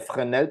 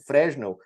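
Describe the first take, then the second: First: The name is pronounced in a French way. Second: The name is pronounced in a Brazilian Portuguese way. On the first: This is the name's original pronunciation. "é Fresnel porque ele era francês" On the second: This is how people commonly say it. "como o pessoal costuma falar"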